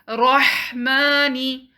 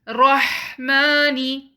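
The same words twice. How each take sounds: No difference in how they are said.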